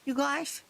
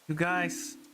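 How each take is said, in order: First: It is said in a whiny kid voice. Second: It is said in his normal voice.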